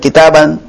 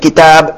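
First: The word ends with a full -an ending. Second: The word ends on a bare consonant b. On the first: This is the full case ending without pausing. "Bukan kitaban" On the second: The ending is dropped entirely with sukun. "bukan kitab disukunkan"

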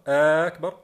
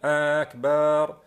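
First: The vowel after the b is short. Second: The vowel after the b is long. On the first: The speaker calls it right. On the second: The speaker calls it wrong.

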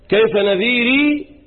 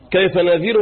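First: The word ends with an added long 'ee' vowel. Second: The word ends on a silent R, without a final vowel. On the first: "إثبات الياء إيه وقفا" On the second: "سكون الراء اللي هو حذف الياء بدون ياء"

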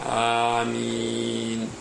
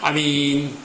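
First: The first vowel is drawn out long. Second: The first vowel is cut short. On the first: It asks God to answer the prayer. The speaker calls it right. "walaupunnya dipanjangkan, mim juga demikian" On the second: It names a trustworthy person. The speaker calls it wrong. "Jangan juga hamzahnya dipendekkan"

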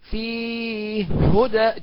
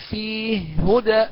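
First: The long vowel is held medium length. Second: The long vowel is held short. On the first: "التوسط" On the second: "بالقصر"

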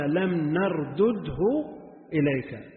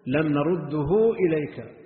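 First: The doubled consonant is split into two sounds. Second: The doubled consonant is merged into one sound. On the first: "لو فككنا الإدغام" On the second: "ما دام وجد الإدغام"

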